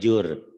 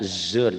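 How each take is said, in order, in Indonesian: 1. Kata ini diawali bunyi j. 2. Kata ini diawali bunyi z. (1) "Jangan jur. Itu orang Sunda"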